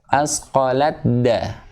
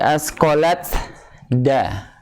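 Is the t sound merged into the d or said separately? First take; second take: merged; separately. First: The t merges fully into the d. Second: The t is pronounced clearly before the d. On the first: The speaker calls it right. "tapi masuk langsung ke dal" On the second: The speaker calls it wrong. "tidak dibaca lagi asqalat da"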